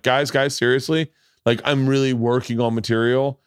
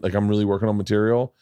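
First: "really" stressed in a raised, insistent plea; pleading insistence. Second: Said in the usual way. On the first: Retold or imitated. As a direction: plead with them, leaning on REALLY. Pleading again after being booed.

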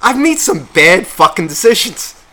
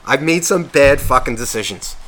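First: Said louder, stress on made; louder emphatic confession. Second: Said in the usual way. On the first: Real, not acted. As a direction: declare it louder, rising. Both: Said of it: "I'm actually realizing".

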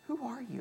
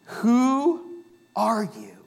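First: Much softer echo of the question; soft repeat. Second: Drawn out slow question; slow rhetorical question. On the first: Pastor echoing the question to the congregation, hushed. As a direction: drop it almost to a hush. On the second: Pastor posing the question to the congregation, slow. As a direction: let the question hang, slowly. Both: Shown as a demonstration. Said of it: "not a question somebody asks you".

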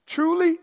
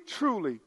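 First: Preacher hits Truly with force; emphatic truly. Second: Preacher echoes truly in a hush; soft echoed truly. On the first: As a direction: ring out the first Truly. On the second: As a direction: let the second truly fall away quietly. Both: Shown as a demonstration. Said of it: "This is a double emphatic".

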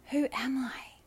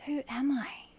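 Both takes have the same delivery.

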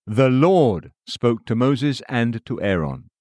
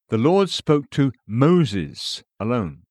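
First: Slow, "Lord" drawn out and punched; stress on LORD. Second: Slow, "Moses" set apart and drawn out; stress on MOSES. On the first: Narrator citing who received the ordinance, stress on "Lord". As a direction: put the weight on "Lord", then read on evenly. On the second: Narrator contrasting other verses, stress on "Moses". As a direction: hold back, then lean on "Moses". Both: A narrator's reading. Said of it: "emphasis added".

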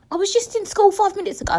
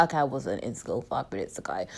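First: High, quick whiny exaggeration; mock protest. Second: Low, soft climb-down; deflated admission. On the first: Bemoaning turning twenty-five to listeners, high mock protest. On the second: Acted. Correcting her own exaggeration to listeners, low deflated aside. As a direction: drop right down and quietly concede.

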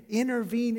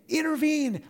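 First: Intervene. said a little raised, rising at the end like a question; asking plea. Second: Intervene. said high and loud, falling hard at the end; urgent plea. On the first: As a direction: ask God gently, lifting intervene. upward. David has made his request. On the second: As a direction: beg God to step in, pushing the word Intervene. up high. Voicing David pleading with God. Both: Acted.

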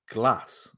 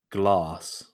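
First: Said in the usual way. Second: Lower, drawn-out British "glahs" for "glass"; British pronunciation. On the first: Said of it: "or as you might say". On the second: Retold or imitated. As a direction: say "glass" as "glahs", with a long back A. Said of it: "as you might say".

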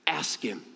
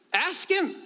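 First: Low, hushed "ask him"; soft, low prompt. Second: Much higher, insistent "ask him"; high, urging repeat. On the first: Preacher gives the disciples' model, quietly. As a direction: drop the voice to a quiet instruction. Soft first take, then repeated. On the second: Preacher urges congregation to ask, high and insistent. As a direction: urge it with a leap in pitch. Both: Real, not acted.

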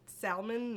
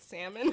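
First: "salmon" with a clearly voiced L; L sounded in salmon. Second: Said in the usual way. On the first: Shown as a demonstration. Showing how Miamians say "salmon", L pronounced. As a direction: pronounce the L in "salmon", Spanish-influenced. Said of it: "you will s-, call it". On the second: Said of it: "not salmon".

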